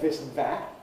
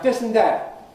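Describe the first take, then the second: First: The words start with a V-like sound. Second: The words start with a D-like sound. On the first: "with V, the Labour dental" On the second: "with plosives"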